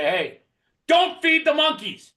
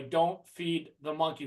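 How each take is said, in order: First: High, loud, slow warning shout with a laugh; laughing, loud and stretched-out warning; raised voice. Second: Quiet passive warning. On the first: Shown as a demonstration. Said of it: "raise their voice a little bit and say". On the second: Retold or imitated. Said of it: "When they say don't feed 'em".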